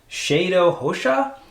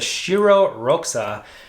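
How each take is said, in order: First: The name is pronounced with native sounds. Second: The name is pronounced with English sounds. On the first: "The actual pronunciation, I believe" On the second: "that's the English pronunciation"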